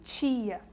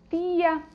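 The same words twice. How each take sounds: First: The t sounds like ch before i. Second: The t is a plain, hard t sound. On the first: The speaker calls it wrong. "a gente fala muito o T dessa forma, como tia" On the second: The speaker calls it right. "É como o pessoal lá do Nordeste, que fala tia"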